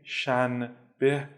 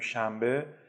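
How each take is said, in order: First: The word is said in its careful full form. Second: The word is said in a relaxed fluent form. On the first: "میگیم شنبه" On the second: "تو روون خوندن میگیم شنبه"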